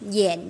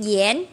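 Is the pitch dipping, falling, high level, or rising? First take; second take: dipping; rising. First: The pitch dips low and then rises. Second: The pitch rises from mid to high. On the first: "Bốn âm ta đọc thế" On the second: "Bốn âm ta đọc thế"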